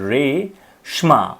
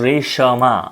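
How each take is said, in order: First: The sh is clipped with no vowel after it. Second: The sh is followed by a full vowel. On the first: "શ ઝડપથી પૂરો થઈ જાય છે" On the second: "શ આખો બોલાય છે"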